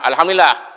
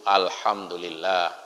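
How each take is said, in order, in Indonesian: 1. Diucapkan dengan nada marah. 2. Diucapkan dengan nada tenang. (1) "cara mengucapkannya seperti orang marah" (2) "Kan tidak seperti itu"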